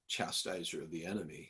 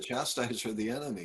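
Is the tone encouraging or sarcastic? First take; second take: sarcastic; encouraging. First: It is said in a mocking, sarcastic tone. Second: It is said in an urging, encouraging tone. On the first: The title is used as a mocking jab. The speaker calls it wrong. "it's not like just being sarcastic" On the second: The title is a reminder of his real strength. The speaker calls it right. "He's like, come on"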